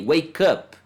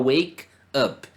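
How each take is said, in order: First: The two words run together as one word. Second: The two words are said apart, with a break. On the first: The speaker calls it right. "eu vou juntar os sons ali" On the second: The speaker calls it wrong. "eu não vou falar wake up"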